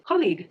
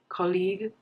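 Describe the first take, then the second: First: The stress falls on the first syllable. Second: Neither syllable is stressed more than the other. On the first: "the word is simply just pronounced as colleague" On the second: "If you're not putting a stress on any syllable of the word"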